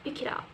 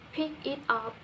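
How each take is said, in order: First: The words are joined smoothly and quickly. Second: Each word is said separately and fully.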